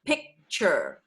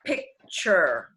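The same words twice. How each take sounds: First: Picture ohne K, wie pitcher gesprochen; dropped C. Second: Picture mit deutlichem K vor dem T; clear picture. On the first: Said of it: "If we drop the C in picture". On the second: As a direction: say picture with a crisp K. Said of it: "if the word is picture". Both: Shown as a demonstration.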